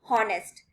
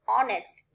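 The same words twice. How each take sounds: First: The word starts with a sounded h. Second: The word starts with a vowel, h silent. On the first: The speaker calls it wrong. "It's not honest" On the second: The speaker calls it right. "The pronunciation will be honest"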